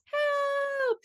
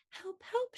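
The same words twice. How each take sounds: First: Very high, drawn-out call for help; shouted cry. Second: Very high, tiny, softened cry; a little bee too small to be heard. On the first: Storyteller as baby bee needing to be heard, high shout. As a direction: yell it with all her might. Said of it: "she shouted". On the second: Storyteller as baby bee crying for help, tiny high voice. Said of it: "her voice was so small". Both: A narrator's reading.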